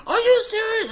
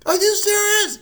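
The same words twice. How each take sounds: First: High, loud, tearful are you serious; crying disbelief. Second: High loud are you serious; stunned shout of disbelief; shocked disbelief. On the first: Mom hearing of brain surgery, crying loud. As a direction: mom sobbing out the question. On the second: Mom reacting to the surgery news, shocked shout. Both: Retold or imitated.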